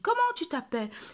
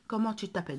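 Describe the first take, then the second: First: It ends with a questioning intonation. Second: It ends flat, like a plain statement. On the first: The speaker calls it right. "j'ai dit comment tu t'appelles. J'ai montré à l'interlocuteur... que je pose une question" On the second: The speaker calls it wrong. "j'ai pas dit"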